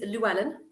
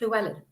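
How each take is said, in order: First: The name is said with an English accent. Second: The name is said with a Welsh accent. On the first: "if you're English" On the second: "if you do it with a proper Welsh accent"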